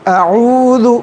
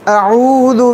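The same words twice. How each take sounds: Both takes have the same delivery.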